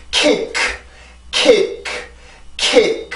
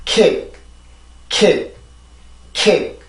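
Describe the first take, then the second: First: "kick" with a strong puff of air on the final k; wrong over-released k. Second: "kick" with the final k closed softly, hardly any air. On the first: Teacher showing learners what not to do, over-released final k. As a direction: release the last k of "kick" hard, as a separate burst. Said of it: "이게 아니라". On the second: Teacher showing the correct word, softly closed final k. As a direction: let the tongue part gently at the end of "kick". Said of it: "아주 부드럽고". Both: Shown as a demonstration.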